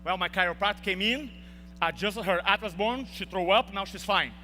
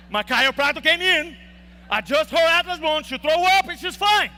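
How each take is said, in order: First: Said in the usual way. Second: Same answer again, higher and louder, insisting; emphatic repeat. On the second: Retold or imitated. Repeating the answer to doubting nurses, loud and insistent. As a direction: hammer the story home, loud and high.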